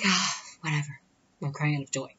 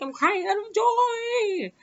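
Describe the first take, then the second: First: Retold brush-off, no wail left; dismissive. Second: Very high, drawn-out mock wail; exaggerated tearful wail, climbing high; crying for joy. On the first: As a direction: shrug it off, voice settled down. Dismissive last repeat after wails. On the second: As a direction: ham up a squealing happy sob, slowly. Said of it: "And I started crying".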